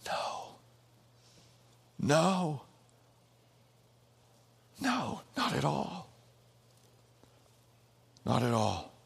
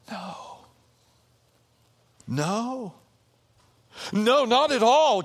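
First: Quiet, settled no; hushed no. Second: Rising from a flat no to a loud ringing no; no, no, NO, building to a declaration; building emphatic no. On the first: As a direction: say it gently, almost to yourself. Same answer repeated, hushed. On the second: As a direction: answer louder with each no. Preacher answers his own question, building. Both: Acted.

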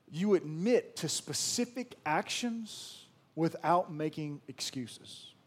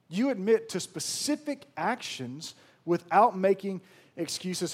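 First: Slow deliberate statement. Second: Emphatic repeat. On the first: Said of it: "repeated point". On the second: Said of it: "repeated louder". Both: Shown as a demonstration.

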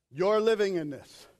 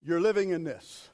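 Both takes have the same delivery.

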